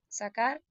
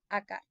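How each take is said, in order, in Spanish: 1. La palabra empieza con su primer sonido intacto. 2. Se omite la primera consonante de la palabra. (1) "En lugar de sacar" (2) "dicen acar"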